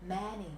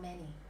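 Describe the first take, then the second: First: The first vowel is the open vowel of cat. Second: The first vowel is the plain vowel of bed. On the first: The speaker calls it wrong. "E dọc" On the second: The speaker calls it right. "e thường"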